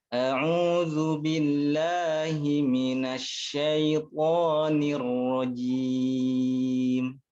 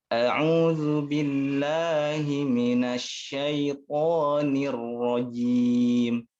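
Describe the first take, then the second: No difference in how they are said.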